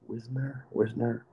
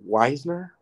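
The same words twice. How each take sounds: First: "Wisner" with a short i, as WIZ-ner; unsure pronunciation attempt. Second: "Weisner" with a long eye vowel first; unsure pronunciation attempt. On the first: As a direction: try out "Wisner" softly, short first vowel. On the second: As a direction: try "Weisner" as WISE-ner, questioning. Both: Real, not acted. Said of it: "I can never say the word right".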